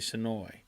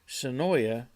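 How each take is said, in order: First: The name is pronounced the way locals say it. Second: The name is pronounced the way outsiders say it.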